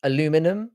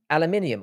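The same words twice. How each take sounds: First: "Aluminum" as a-LU-mi-num, rising; American aluminum. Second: "aluminium" as al-a-MIN-i-um, falling; British aluminium. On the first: Streamer contrasting two words, "Aluminum" stressed on LU. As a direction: stress LU in "Aluminum", four syllables. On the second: Streamer contrasting two words, "aluminium" stressed on MIN. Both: Shown as a demonstration. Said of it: "aluminum and aluminium are different words".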